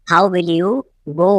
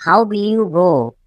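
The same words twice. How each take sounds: First: Teacher separating off the word "go"; broken-up repeat. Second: Said in the usual way. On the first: Shown as a demonstration. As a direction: pause before "go".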